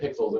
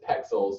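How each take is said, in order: First: The first vowel sounds like in 'pick'. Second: The first vowel sounds like in 'peck'. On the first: The speaker calls it wrong. "I just said it wrong. I said pixels" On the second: The speaker calls it right. "it's pexels"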